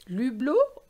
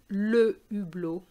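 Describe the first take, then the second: First: The article is elided into the noun. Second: The article is said in full before the noun. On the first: The speaker calls it wrong. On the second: The speaker calls it right.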